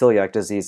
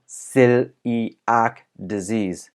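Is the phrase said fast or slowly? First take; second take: fast; slowly. First: The phrase is said quickly. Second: The phrase is said slowly.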